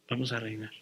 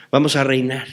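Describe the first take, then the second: First: Much softer repeat of "Vamos a reinar"; soft echo. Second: Said in the usual way. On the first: Shown as a demonstration. Preacher echoing the promise to the congregation, very softly. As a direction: let "Vamos a reinar" fall away almost inaudibly. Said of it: "repeated line, echoed softly". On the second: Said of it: "repeated line, first take".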